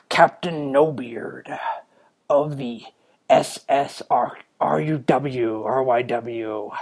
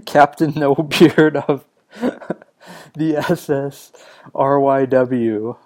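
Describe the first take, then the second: First: Slow, hammed-up pirate captain; Captain No Beard. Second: Laughing through a silly title, drawn out; amused laughing. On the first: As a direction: announce yourself as a mock pirate, drawn out. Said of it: "in a pirate's voice". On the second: Real, not acted. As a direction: repeat it slowly, cracking up at yourself. Laughs repeating his invented pirate name.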